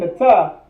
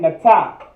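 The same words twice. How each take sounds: First: The word ends on a plain vowel, no h. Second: The word ends with an emphasized breathy ha. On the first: The speaker calls it wrong. "Instead of saying Nata" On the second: The speaker calls it right. "you're saying Nata. You're putting more emphasis on that ha at the end"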